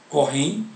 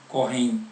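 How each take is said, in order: The two takes are said the same way.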